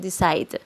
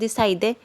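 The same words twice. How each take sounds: First: The word ends on the D sound, no vowel. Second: A vowel sound is pronounced after the final D. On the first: The speaker calls it right. "omitimos la E en la pronunciación quedando al final una, un sonido como de D" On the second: The speaker calls it wrong. "nosotros no decimos decide"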